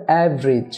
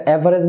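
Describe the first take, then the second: First: "অ্যাভারেজ" as av-rij; two-syllable average. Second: "অ্যাভারেজ" as a-va-rej, every vowel sounded; three-syllable average. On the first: Teacher gives correction, "অ্যাভারেজ" as av-rij. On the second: Teacher shows the form to avoid, "অ্যাভারেজ" as a-va-rej. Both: Shown as a demonstration. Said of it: "না হবে".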